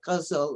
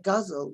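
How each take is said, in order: First: The word is said with an Urdu pronunciation. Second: The word is said with an English pronunciation. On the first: "if it was the Urdu, you would say" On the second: "the English say guzzle, which sounds ridiculous"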